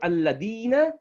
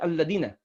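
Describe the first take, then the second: First: The vowel before the last syllable is held long. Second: The vowel before the last syllable is cut short. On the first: The speaker calls it right. "Instead of alladina" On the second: The speaker calls it wrong. "if you drop that, the ya"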